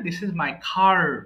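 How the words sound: The r at the end is clearly pronounced. The speaker calls it right. "American ইংলিশে এটাকে সুন্দর করে"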